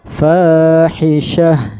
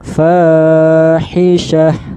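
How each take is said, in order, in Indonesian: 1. Kata ini berakhir dengan bunyi h lembut. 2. Kata ini berakhir dengan bunyi h lembut.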